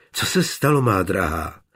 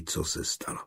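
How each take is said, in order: First: A gently worried question, falling on se; concerned. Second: Breathy whisper of co se stalo, co leaned on. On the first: Johann asks his dear one, gently concerned. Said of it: "zeptal se starostlivě". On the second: Johann whispers to his friend in line, secretly. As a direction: tell it under your breath. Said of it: "Šeptem pověděl Eliášovi". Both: Acted.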